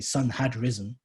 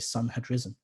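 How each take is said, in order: First: The word 'had' carries stress. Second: The word 'had' is unstressed. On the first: The speaker calls it wrong. "you don't say" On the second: The speaker calls it right. "You pronounce it in an unstressed way"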